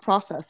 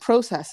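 First: It is said with an American-style pronunciation. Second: It is said with a British-style pronunciation. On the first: It is the usual local way of saying it. "instead of process" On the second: It was picked up while living in England. "he said the word process instead of process"

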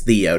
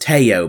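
First: The name is said with an American pronunciation. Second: The name is said the original, non-American way. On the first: The speaker keeps a local habit despite correction. "but I'm American. That's how I'm going to pronounce it" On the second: This is how others say the name should be said. "everyone's telling me that his name is Teo"

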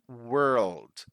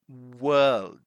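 First: It is said in an American accent with an R sound. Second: It is said in a British accent with no R sound. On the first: "American English" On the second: "British English"

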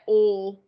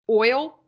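First: The word is said in a Southern US accent. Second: The word is said in a plain, non-Southern accent.

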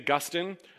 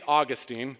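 First: The stress is on the second syllable. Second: The stress is on the first syllable. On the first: It names the early church father. The speaker calls it right. "this is St. Augustine" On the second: It names the city in Florida. The speaker calls it wrong. "not St. Augustine. That's the city in Florida"

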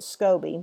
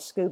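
First: The word does not sound like Scooby. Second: The word sounds like the cartoon name Scooby. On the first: The speaker calls it right. "I pronounce it SCOBY" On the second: The speaker calls it wrong. "I did catch myself calling it a Scooby"

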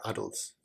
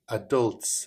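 First: It is said the British way. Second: It is said the American way.

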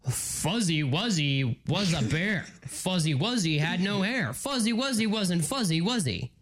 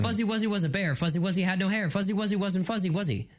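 First: It is said at a normal, relaxed speed. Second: It is said quickly, at a rushed speed.

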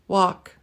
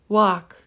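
No difference in how they are said.

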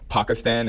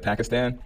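First: The word is pronounced the way locals say it. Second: The word is pronounced the usual American way. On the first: It follows how the name is said in its own country. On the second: It follows the common English pronunciation.

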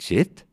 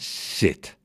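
First: The word is repeated with a rising, playful pitch. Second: The word is short with a falling pitch. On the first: The dog thinks it is time to play. The speaker calls it wrong. "En niet zit, zit, zit, zit" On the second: A firm command the dog obeys. The speaker calls it right. "Kort en omlaag"

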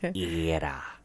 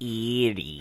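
First: The word sounds like 'era'. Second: The word sounds like 'eerie'. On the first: The speaker calls it right. "the least you can do is say it right" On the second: The speaker calls it wrong. "It's not Erie"

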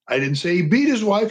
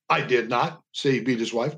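First: The stress is on the word beat. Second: The stress is on the word not.

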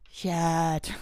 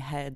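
First: The word begins with a y sound. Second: The word begins with an h sound. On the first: "they're saying yed" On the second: "they aren't saying head"

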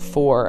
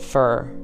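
First: The vowel sounds like 'or'. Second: The vowel sounds like 'ur'. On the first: "Instead of saying for" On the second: "I said fur. ... a Connecticut accent"

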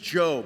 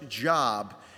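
First: The vowel is long, as in 'robe'. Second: The vowel is short, as in 'rob'. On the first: This is the name of the biblical figure. The speaker calls it right. "He is Job" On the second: This is the ordinary word for work, not the name. The speaker calls it wrong. "His name is not pronounced Job"

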